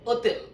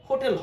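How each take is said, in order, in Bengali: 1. শব্দটি স্বরধ্বনি দিয়ে শুরু হয়, h নীরব। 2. শব্দটি h ধ্বনি দিয়ে শুরু হয়। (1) "এটার উচ্চারণ হবে ওতেল" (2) "হোটেল হবে না"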